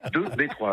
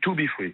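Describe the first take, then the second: First: The name is read as French numbers. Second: The name is read as English words. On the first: The speaker did not know the band's name. The speaker calls it wrong. "[name] ne savait pas prononcer" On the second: This is how the band's name is meant to be said. The speaker calls it right. "on dit to be free"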